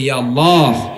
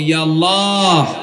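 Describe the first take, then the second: First: It is said loudly. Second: It is said even more loudly.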